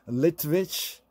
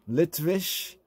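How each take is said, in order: The two takes are said the same way.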